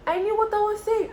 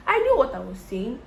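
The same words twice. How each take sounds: First: Much higher, insistent; emphatic repeat. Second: Said in the usual way. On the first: Retold or imitated. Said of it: "repeated higher for emphasis". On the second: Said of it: "repeated for emphasis".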